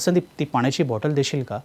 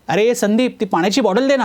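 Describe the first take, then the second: First: It is said in a humble, polite tone. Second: It is said in a harsh, aggressive tone.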